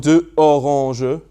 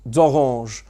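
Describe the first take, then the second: First: Two vowel sounds are said separately, one after another. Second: The vowels are joined so the words flow together. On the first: The speaker calls it wrong. "with two vowel sounds next to one another" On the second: The speaker calls it right. "they join them together so it becomes d'orange"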